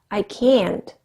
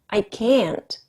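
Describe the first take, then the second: Both takes have the same delivery.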